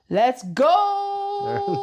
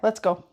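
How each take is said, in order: First: It is said loudly, with high energy. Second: It is said flatly, without much energy.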